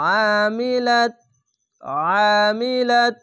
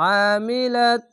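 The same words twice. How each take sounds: First: আমিলাত slow, louder, throat squeezed on the ain; heavy throaty ain. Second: আমিলাত with squeezed-throat ain, higher; throaty recitation of আমিলাত; heavy throaty ain. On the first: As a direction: press the throat hard on আমিলাত. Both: Shown as a demonstration. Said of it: "মোটা করে গলা চিপে পড়বেন".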